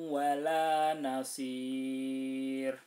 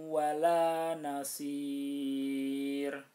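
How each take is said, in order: No difference in how they are said.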